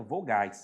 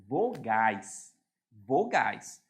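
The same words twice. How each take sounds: First: Said in the usual way. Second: "vogais" drawn out slowly and deliberately; emphatic VOGAIS. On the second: Shown as a demonstration. Teacher makes students pay attention to the term, emphatic "vogais". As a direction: stretch each syllable of "vogais" for emphasis. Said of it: "Presta atenção, eu estou falando".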